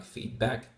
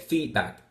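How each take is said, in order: First: "feedback" with the stress on back; feedback, second half stressed; stress on second word. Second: "feedback" with the stress on feed; feedback, first half stressed; stress on first word. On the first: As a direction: say feedback Dutch-style, leaning on "back". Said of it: "put the stress on the second word". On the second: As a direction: hit "feed" in feedback, let back drop. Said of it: "stress on the first word of the compound". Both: Shown as a demonstration.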